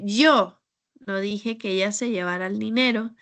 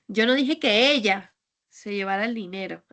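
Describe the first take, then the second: First: The word 'yo' carries the main stress. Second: The word 'ella' carries the main stress. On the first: Someone other than the speaker said it. "porque tal vez no fui yo, yo no fui quien dijo eso" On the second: A different person took it. "es que igual fue otra persona"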